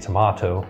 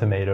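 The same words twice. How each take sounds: First: It is said in a British accent. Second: It is said in an American accent.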